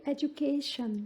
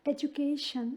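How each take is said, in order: Both takes have the same delivery.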